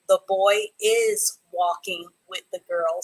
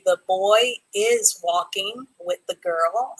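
First: Slow dictation that leans on "is"; "is" said with clear emphasis in "The boy is walking with the girl."; stress on "is". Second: Slow, even dictation of the sentence; "The boy is walking with the girl." read slowly, with no extra weight on "is". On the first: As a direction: hit "is" so the student hears the missing word. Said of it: "add the word "is" in there". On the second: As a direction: read it out word by word for the class. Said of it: "I need for you to add the word "is". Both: Shown as a demonstration.

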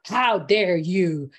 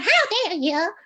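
First: "How dare you?" slow, low and firm; weighted outrage, dragged out; low indignant. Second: "How dare you?" squeaked high and loud; shrill-sounding high version, the way not to do it; high-pitched wrong take. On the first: Teacher showing the right way to say it. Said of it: "It's not". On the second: Teacher showing the too-high wrong version. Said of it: "it's not high pitch". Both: Shown as a demonstration.

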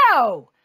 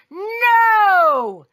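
First: Firm, unshouted no; firm refusal. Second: High, loud, drawn-out NO; yelled no. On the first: Father refuses the cashier, firm. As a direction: refuse without yelling yet. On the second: Father refuses the cashier, yelling. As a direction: yell the no and stretch it. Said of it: "The father yelled". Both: A narrator's reading.

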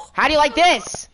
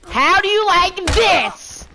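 First: Louder, higher jeer with a falling end; taunting yell. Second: Much higher, louder, slow gloating shout; drawn-out taunting yell. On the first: Gamer gloating at a counselor, loud taunting yell. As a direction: rub it in, loudly. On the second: Gamer gloating over a kill, slow loud crowing yell. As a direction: stretch it out and crow it even harder. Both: Real, not acted.

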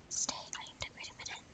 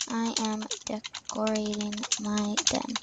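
First: Quick breathy whisper, no voice; fast whisper. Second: Said in the usual way. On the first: Shown as a demonstration. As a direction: rush it out in a hushed whisper. Same line redone whispered.

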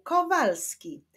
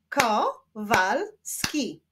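First: Said in the usual way. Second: "Kowalski" slowly split as ko, wal, ski; three slow beats on "Kowalski"; syllable by syllable. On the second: Shown as a demonstration. Teacher clapping a surname for pupils, "Kowalski" split in three. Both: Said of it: "Wyklaszczmy sylaby w jego nazwisku".

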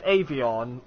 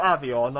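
First: Avion said AY-vee-on; long A in Avion. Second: Avion said AV-ee-on; short A in Avion. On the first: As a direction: start Avion with "ay" as in day. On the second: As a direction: start Avion with "a" as in cat. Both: Shown as a demonstration. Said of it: "I don't know how it's pronounced".

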